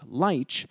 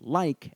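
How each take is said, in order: First: The word ends with a ch sound. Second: The word ends with a hard k sound. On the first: This is the southern English form. "and not lich" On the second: This is the modern form with a northern origin. "we pronounce the word as like"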